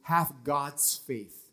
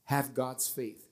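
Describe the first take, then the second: First: Slow, weighty Have God's faith; slow emphasis. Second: Said in the usual way. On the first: Shown as a demonstration. Preacher gives the Greek reading slowly and deliberately. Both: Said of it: "In Greek, the word there, it says".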